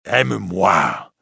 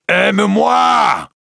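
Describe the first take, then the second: First: A priest begging Esmeralda, slow and intense; pleading priest. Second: Much higher, louder, slow anguished cry; a priest screaming his love at Esmeralda; desperate shout. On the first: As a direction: beg her, holding it back. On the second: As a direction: let the plea explode into a scream. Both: Acted. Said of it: "crie le prêtre".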